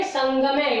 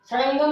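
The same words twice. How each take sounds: First: संगमे said correctly with a nasal ङ and no flap; संगमे said the right way, nasal ङ before ग; correct pronunciation. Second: सड़ंगम said wrongly with a flapped ड़ in the middle; wrong pronunciation. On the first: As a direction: model the right form संगमे with a clear nasal ङ. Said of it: "वही अणे है ये". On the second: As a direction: demonstrate the mistake सड़ंगम with a flapped ड़. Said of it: "सड़ंगम नहीं बोलेंगे". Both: Shown as a demonstration.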